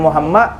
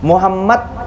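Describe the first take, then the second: First: The final d sound is dropped. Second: The final d sound is pronounced. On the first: The speaker calls it wrong. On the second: The speaker calls it right.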